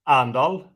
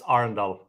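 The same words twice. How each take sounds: First: It is pronounced the local Norwegian way. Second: It is pronounced the company's English-style way. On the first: This is how people from the town say it. "The local local would say Arendal" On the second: This is how the company says its own name. "that's not what how we say it. So it's Arendal"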